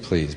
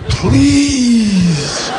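First: It is said casually, without much feeling. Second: It is said desperately, pleading hard.

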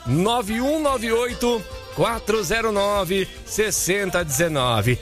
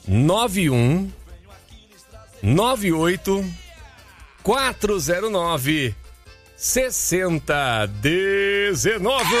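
First: The number is said quickly. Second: The number is said slowly.

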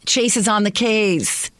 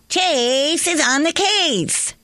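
First: It is said plainly, without excitement. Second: It is said with lots of excitement.

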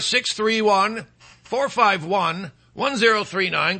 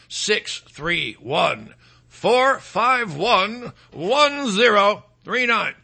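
First: The number is said at normal speed. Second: The number is said more slowly.

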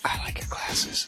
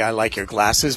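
First: It is whispered in a creepy way. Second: It is spoken in a normal voice.

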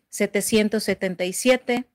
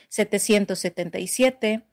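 The two takes are said the same way.

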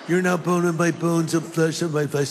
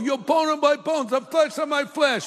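First: It is said in a California accent. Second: It is said in an East Coast accent.

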